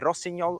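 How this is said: The name is said with Italian pronunciation. "I'm pronouncing it the Italian way"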